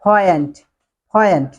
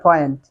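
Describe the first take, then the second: First: 'point' with a puffed p; corrected pronunciation. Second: 'point' with unaspirated p; wrong pronunciation. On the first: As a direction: model 'point' as 'phoyent', falling. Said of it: "so say point". (শুদ্ধ উচ্চারণে 'point', ফয়েন্ট) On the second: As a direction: demonstrate 'point' as local 'poyent', no puff. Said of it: "Forget the point". (ভুল উচ্চারণে 'point', পয়েন্ট) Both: Shown as a demonstration.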